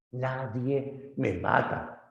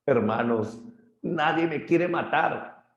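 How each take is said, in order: First: Lento, un poco más agudo, voz de cíclope; Polifemo lento. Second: Grito agudo y lento en quiere; un gigante que pide ayuda subiendo el tono; Polifemo gritando. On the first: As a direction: alarga cada palabra como un gigante herido. (Polifemo lento y quejumbroso) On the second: (Polifemo suplicando, quiere muy agudo) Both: Acted. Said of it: "Polifemo grita".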